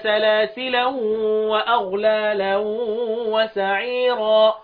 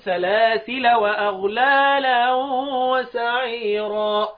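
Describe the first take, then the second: First: The first word ends with a nasal -an sound. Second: The first word ends with a plain -a sound. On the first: "سلاسلا بالتنوين" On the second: "بالفتح بدون تنوين"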